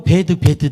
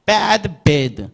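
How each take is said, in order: First: Bad, bad both said alike as Korean "be-deu"; Korean-style pronunciation. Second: First Bad wide open, second bad like "bed"; teacher separating the two vowels in Bad, bad; distinct vowels. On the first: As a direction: flatten bad, bad into the same Hangul vowel. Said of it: "아이들이 한글로 가고". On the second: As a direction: contrast Bad, bad as bad then bed. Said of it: "구분해야 합니다". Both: Shown as a demonstration.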